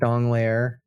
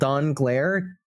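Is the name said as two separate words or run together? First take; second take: run together; separate. First: The two parts are said fast and run together. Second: The two parts are said separately and clearly. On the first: "if you say it fast it sounds like Dongler" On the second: "which I have to say that way because if you say it all together it sounds very different"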